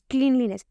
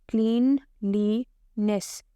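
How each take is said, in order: First: Said in the usual way. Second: क्लीनलीनेस slowly in three beats, क्लीन-ली-नेस; split into syllables. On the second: Shown as a demonstration. Teacher counting chin touches, क्लीनलीनेस broken slowly into three. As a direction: pause after each syllable of क्लीनलीनेस. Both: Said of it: "तीन बार touch हुआ".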